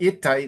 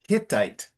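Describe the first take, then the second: First: The initial H sound is dropped. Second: The initial H sound is clearly pronounced. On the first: The speaker calls it wrong. "it's not Hittite" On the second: The speaker calls it right. "you have to pronounce the H of Hittite"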